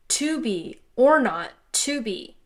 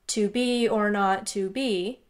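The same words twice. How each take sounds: First: Strong beats fall before the weak beats throughout. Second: Every syllable gets the same flat weight. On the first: "flipped the emphasis" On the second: "all monotone and rhythmic"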